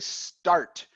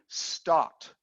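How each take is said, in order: First: The R after the vowel is pronounced. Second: The R after the vowel is dropped. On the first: "They don't say start" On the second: "They swallow the R and they never pronounce the R"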